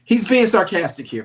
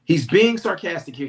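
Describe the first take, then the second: First: Loud, punched declaration; emphatic. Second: Emphatic repeat. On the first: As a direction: hit it hard and loud. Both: Shown as a demonstration.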